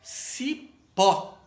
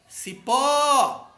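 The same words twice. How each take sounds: First: Said in the usual way. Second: Ci-PÓÓÓ, alto e agudo; última sílaba forte. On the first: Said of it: "a última sílaba é a mais forte". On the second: Shown as a demonstration. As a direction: chame Cipó esticando o PÓ. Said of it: "pronuncia com mais força". (Cipó com PÓ forte e demorado)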